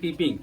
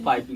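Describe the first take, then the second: First: The first vowel sounds like 'ee'. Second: The first vowel sounds like 'eye'. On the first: The speaker calls it wrong. "लिखा हुआ लग रहा है पीपिंग" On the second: The speaker calls it right. "Pronunciation किया जाता है पाइपिंग hot"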